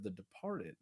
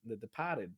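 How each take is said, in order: First: Said in the usual way. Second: Boston dropped R on Departed; Boston accent. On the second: Retold or imitated. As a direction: repeat it as "De-pah-ted", imitating Boston talk. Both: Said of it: "I'm talking this Boston accent".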